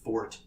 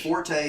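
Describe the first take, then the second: First: The word is said with one syllable. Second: The word is said with two syllables. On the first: The speaker calls it right. "It's supposed to be pronounced fort" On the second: The speaker calls it wrong. "forte is the incorrect pronunciation of the word"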